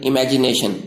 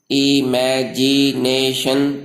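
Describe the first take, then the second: First: Said in the usual way. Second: imagination slowly chanted in five separate syllables. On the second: Shown as a demonstration. Teacher repeats imagination for learners, slow syllable by syllable. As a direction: stretch each syllable of imagination evenly. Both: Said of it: "पांच हरकतों से अदा होते हैं".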